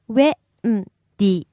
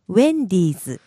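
First: It is said slowly, broken into syllables. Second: It is said quickly at natural speed. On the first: "break it down" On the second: "And one time fast"

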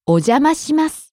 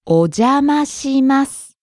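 First: The phrase is said at normal speaking speed. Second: The phrase is said slowly and deliberately. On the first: "And regular speed" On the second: "One more time slowly"

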